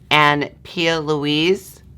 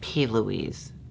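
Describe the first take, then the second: First: The first part is said as two syllables. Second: The first part is said as one letter. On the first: The speaker calls it wrong. "Is that how you pronounce it?" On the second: The speaker calls it right. "Or is it P. Louise? It's P, period, Louise"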